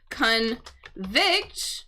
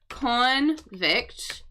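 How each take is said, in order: First: The stress is on the second syllable. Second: The stress is on the first syllable. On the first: It means to declare someone guilty of a crime. "syllable on the second half" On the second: It names a person who committed a crime. "syllable stress on the first half"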